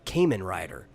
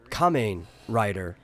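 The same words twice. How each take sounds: First: The name has a local Texan pronunciation. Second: The name has its standard pronunciation. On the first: "They call it Kamen Rider because they've decided that's how you pronounce that" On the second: "people don't call it Kamen Rider"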